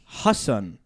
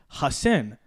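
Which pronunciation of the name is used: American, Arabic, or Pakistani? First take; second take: Pakistani; American. First: The name is said with a Pakistani pronunciation. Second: The name is said with an American pronunciation. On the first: "Hassan, Pakistani, Urdu" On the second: "more or less Hassan, American"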